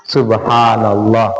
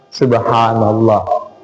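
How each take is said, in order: No difference in how they are said.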